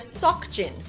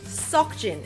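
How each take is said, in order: The two takes are said the same way.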